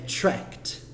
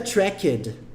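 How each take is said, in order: First: The ending is just a t sound. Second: The ending is said as an extra syllable. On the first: The speaker calls it right. "Como se esse E nem tivesse aqui" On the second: The speaker calls it wrong. "Não fica tracked"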